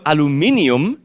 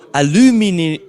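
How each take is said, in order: First: The stress falls on the 'inium' part. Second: The stress falls on the 'u' syllable. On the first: "so the inium is stressed" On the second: "with the stress on the U"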